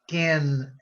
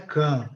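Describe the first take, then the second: First: The final n sound is clearly pronounced. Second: The final n sound is weak or unclear. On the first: The speaker calls it right. "é can, n, n. Fica bem claro" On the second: The speaker calls it wrong. "não é can"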